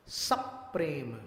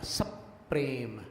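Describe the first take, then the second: First: Said in the usual way. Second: सप्रेम with स striking प, slowed; सप्रेम drawn out, स hits प; collision demo. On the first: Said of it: "सप्रेम नहीं बोला". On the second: Shown as a demonstration. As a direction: stress the स-प impact in सप्रेम. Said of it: "स का प से टकराया".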